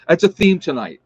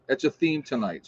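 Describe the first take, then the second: First: Laughing. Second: Said in the usual way. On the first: Real, not acted. Laughing remark to live chat.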